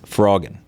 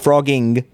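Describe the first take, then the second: First: The word ends without a G sound. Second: The word ends with a pronounced G sound. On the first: The speaker calls it right. "you drop the G. It's frogging" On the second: The speaker calls it wrong. "You're not frogging. There's no extra G at the end"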